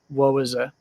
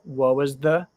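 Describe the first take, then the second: First: The last word is reduced to a weak vowel. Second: The last word is said clearly with its th sound. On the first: This is how most people normally speak. "most people would just say" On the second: This is careful, trained speech. "I've trained myself to speak clearly"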